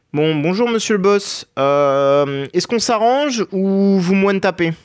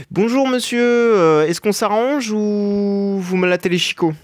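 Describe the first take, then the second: First: High, slow, overly polite bargaining; mock-polite greeting. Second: High, slow, overly polite threat; mock-polite greeting. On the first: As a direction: sweet-talk the boss in a prissy high voice. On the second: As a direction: sweet-talk the boss with a veiled threat. Mock-polite greeting to the boss again.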